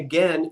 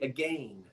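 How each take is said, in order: First: It is said in an everyday general American way. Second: It is said in an old South Jersey way. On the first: "instead of saying again" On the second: "they would say again"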